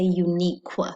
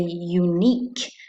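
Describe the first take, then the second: First: The ending has a kw sound. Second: The ending has a plain k sound. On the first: The speaker calls it wrong. "We don't say unique" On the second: The speaker calls it right. "We say unique"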